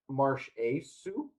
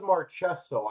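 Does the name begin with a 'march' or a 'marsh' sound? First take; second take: marsh; march. First: The first syllable sounds like 'marsh'. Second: The first syllable sounds like 'march'. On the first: This is a version the speaker had never heard. "I'd never heard as Marsh Marsh Asu" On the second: This is how the speaker has always said it. "I always thought it was Marchesso"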